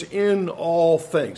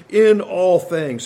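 First: "in all things" drawn out very slowly, each word weighted; stress on in all things. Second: "In all things" slow and louder, hammering "In"; loud emphatic stress. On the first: Preacher stressing the verse's key phrase, slow and deliberate. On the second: Preacher driving home the emphatic phrase to the congregation, loud and slow. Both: Shown as a demonstration. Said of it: "the accent falls upon the qualifying phrase".

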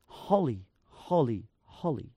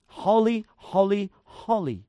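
First: Holy, holy, holy said lower and softer, each falling; soft low triple holy; hushed reverent repetition. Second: Each holy given its own weight, falling at the end; three measured beats on holy, holy, holy; emphatic triple repetition; repeated for emphasis. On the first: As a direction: drop into awe on each holy. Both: Shown as a demonstration. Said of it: "You repeat it three times".

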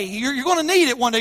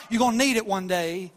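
First: Emphatic warning. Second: Said in the usual way. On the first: Acted. Warning the church, repeated.

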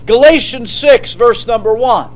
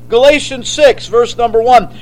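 No difference in how they are said.

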